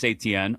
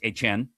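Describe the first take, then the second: First: The name is said in the usual anglicized way. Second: The name is said in a Louisiana-style pronunciation. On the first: The speaker calls it wrong. "I'm sorry" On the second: The speaker calls it right. "got to say it how he wants to say it now because he's back in Louisiana"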